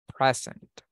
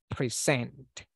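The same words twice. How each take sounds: First: The stress is on the first syllable. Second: The stress is on the second syllable. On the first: It is used as a noun meaning a gift. "if we are talking about the noun, like regalo" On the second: It is used as a verb. "If you are saying the verb, we say present"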